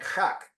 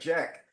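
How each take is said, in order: First: It is said with a Spanish accent. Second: It is said with an English accent. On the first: "the guy kept saying Chak" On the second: "because they don't say Jack"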